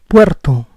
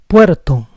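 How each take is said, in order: The two takes are said the same way.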